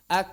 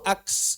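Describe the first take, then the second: First: The final k is released cleanly with nothing added. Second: The final k ends with an added hissing s. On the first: The speaker calls it right. "Lepas aja" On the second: The speaker calls it wrong. "Jangan ditambah huruf baru"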